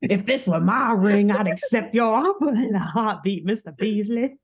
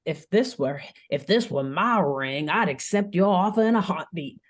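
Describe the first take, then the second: First: Proud Southern gentleman; Southern accent. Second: Put-on a light Southern accent; hint of a Louisiana accent. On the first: Acted. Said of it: "But he had n". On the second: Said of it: "I can't do this accent forever".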